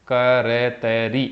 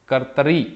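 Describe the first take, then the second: First: करतरी drawn out slowly, each syllable separate; करतरी said slowly as a dictation for students. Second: Said in the usual way. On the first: Shown as a demonstration. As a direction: spell out करतरी very slowly, sound by sound. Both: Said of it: "कर्ता, कर्तरी".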